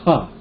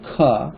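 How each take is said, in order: First: The consonant has a strong puff of air. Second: The consonant is plain, without a puff of air. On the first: "it's followed by aspirated" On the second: "just like the guttural"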